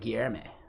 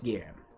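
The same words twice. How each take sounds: First: The final e is clearly sounded. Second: The final e is left silent. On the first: "do I actually pronounce like the last e too" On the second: "I'm guessing it's just"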